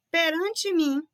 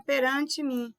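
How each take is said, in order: First: "Perante mim" read out higher and louder, weight on "mim"; reading stressed. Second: Said in the usual way. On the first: Shown as a demonstration. Teacher reads the exam sentence aloud, stressing "mim". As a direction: lift "mim" as you read the example to the class.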